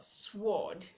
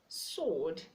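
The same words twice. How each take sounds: First: The W sound is pronounced. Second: The W sound is silent. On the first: The speaker calls it wrong. "not sword" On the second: The speaker calls it right. "Letter W is also silent in the word sword"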